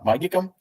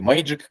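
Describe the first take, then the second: First: The word is said with Russian pronunciation. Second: The word is said with an English accent.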